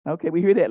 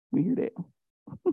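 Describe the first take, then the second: First: Said in the usual way. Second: Slow, much softer, drawn out; knowing aside. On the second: Acted. Preacher teasing the ladies in church, slow and soft. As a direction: let it hang, knowingly amused.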